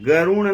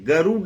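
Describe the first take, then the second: First: The last consonant is a nasal n sound. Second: The last consonant is a retroflex d sound. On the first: The speaker calls it wrong. "गरुण नहीं है" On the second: The speaker calls it right. "गरुड़ है"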